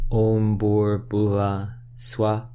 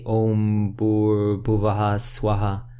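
First: The words end without an echoed vowel. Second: The words end with an echoed vowel. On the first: The speaker calls it right. "I'm not putting an echo at the end of the A sound" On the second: The speaker calls it wrong. "a lot of people put that echo there"

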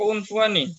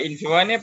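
First: The word begins with a 'u' vowel. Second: The word begins with an 'i' vowel. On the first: The speaker calls it right. "bacanya unfuani ya" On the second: The speaker calls it wrong. "Bacanya apa? Infawani apa unfuani?"

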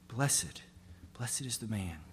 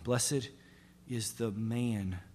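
First: The word 'blessed' is stressed. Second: The word 'man' is stressed.

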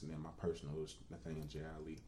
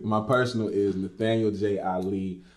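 First: It is said at a quieter, normal volume. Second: It is said louder, with more energy.

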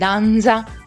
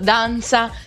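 First: The z sound in danza is voiced. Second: The z sound in danza is voiceless. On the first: The speaker calls it wrong. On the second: The speaker calls it right.

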